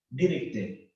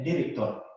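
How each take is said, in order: First: Director said as direkte with the ending e; Creole pronunciation. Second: Said in the usual way. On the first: Shown as a demonstration. Teacher showing students the Creole director. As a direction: drop the r, end director on e. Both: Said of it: "lo que tengo que hacer es director".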